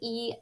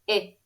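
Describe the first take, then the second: First: The vowel is a long sound. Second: The vowel is a short sound. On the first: "when we say a long vowel sound" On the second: "when we're saying a short vowel sound"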